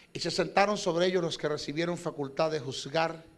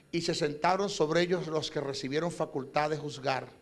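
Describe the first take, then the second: Both takes have the same delivery.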